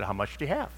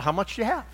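First: Low, soft question back; low-key question. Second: Much higher-pitched, rising question; repeated question. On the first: Seller asked the pearl's cost, answers low-key. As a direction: quietly turn the question on the buyer. Seller asks price, first take. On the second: Seller repeats himself to the puzzled buyer, pointedly. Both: Retold or imitated.

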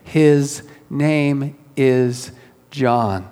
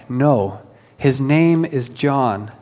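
First: Very slow, every word "His name is John" weighted; big bold declaration. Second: Slow firm his name is John; emphatic. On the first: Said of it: "writes in big, bold letters". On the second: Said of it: "she's emphatic". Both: Retold or imitated.

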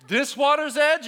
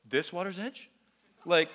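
First: High, loud defiant mock question; taunting shout. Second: Taunting question. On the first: Students up to here in water, loud taunting. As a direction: call it out high and cheeky, goading. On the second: Retold or imitated. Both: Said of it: "they were like".

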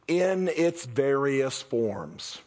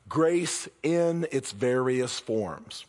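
First: Very slow, weighing each word; slow emphasis. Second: Very slow, deliberate restatement; slow repeat. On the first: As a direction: spell it out slowly. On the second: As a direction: let each word land. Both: Acted. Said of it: "the words I really wanna focus on".

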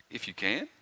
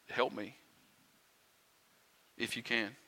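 First: Soft, questioning challenge with a rising end; incredulous echo. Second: Soft, unsure plea for help; hesitant, doubtful plea. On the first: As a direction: throw the doubter's words back as a question. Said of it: "That's how you're coming at me with this?". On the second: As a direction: ask quietly, as if doubting it will work. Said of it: "Can you hear the doubt in his words?". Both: Acted.

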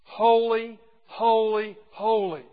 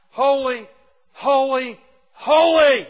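First: Each holy called out loud, falling away slightly; proclaimed threefold. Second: Each holy louder and higher, the last one a full loud cry; building triple holy. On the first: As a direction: proclaim it like the creatures' song. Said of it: "song of the four living creatures". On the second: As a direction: climb with every holy to a ringing peak. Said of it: "He doesn't just repeat it once. He repeats it twice". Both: Shown as a demonstration.

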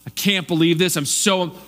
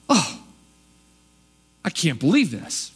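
First: Mind blown, I can't believe this said in happy wonder; amazed and thrilled, the good kind of astonished; delighted astonishment. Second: Scandalised, put-out disbelief; indignant astonishment. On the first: Preacher demoing good astonishment, delighted. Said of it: "When someone's astonished in a good way". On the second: Preacher demoing the hometown's offended shock, indignant. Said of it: "that indignant astonished". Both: Shown as a demonstration.

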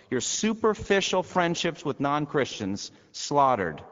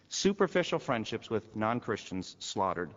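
First: Slow, loud and high, every word hammered; preacher pounding the hardest line; emphatic preaching. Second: Said in the usual way. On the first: Acted. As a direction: drive each word home from the pulpit. Climax of the sermon list.

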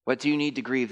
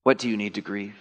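First: "you" pushed up and weighted; "you" raised, ending on grieve; stress on you. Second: "What" hit first and hardest; stress on what. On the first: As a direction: point the question at "you". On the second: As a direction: lean on "What" and let the rest fall. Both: Shown as a demonstration. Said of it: "repeats question, shifting stress".

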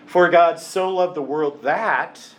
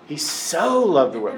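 First: Said in the usual way. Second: "so" stretched and leaned on; stress on so. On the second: Shown as a demonstration. Preacher stressing "so" to show how much God loves. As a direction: lean hard on "so" as the key word. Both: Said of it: "Not just loved the world, but he so".

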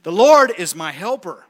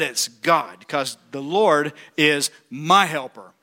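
First: Louder, falling on Lord; proclaiming. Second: Slow, lower, sincere; reverent. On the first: Preacher to congregation, bold proclamation. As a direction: declare it boldly. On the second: Preacher to church, slow sincere conviction. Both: Acted.

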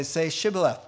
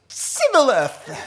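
First: Said in the usual way. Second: Sibboleth with a hissed s in place of sh, high, loud and slow; mispronounced Sibboleth, drawn out for laughs. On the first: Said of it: "instead of saying "sh," they would say "s". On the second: Acted. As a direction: belt out Sibboleth, failing the sh. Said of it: "these guys had an S H problem".

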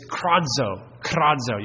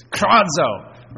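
First: Kradzo said slowly, rolled out, KRAD-zo; Greek word kradzo. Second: Kradzo punched loud and higher like a shout; kradzo cried out. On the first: Preacher sounding out the Greek word, slow and deliberate. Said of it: "one of those words that sounds like what it means". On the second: Preacher showing the word as a real cry, loud. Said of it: "sounds like what it means". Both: Shown as a demonstration.

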